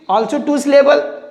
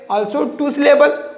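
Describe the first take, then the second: No difference in how they are said.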